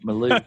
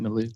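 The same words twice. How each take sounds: First: It is said in a Texan accent. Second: It is said plainly, without a Texan accent.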